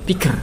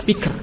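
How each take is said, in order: Both takes have the same delivery.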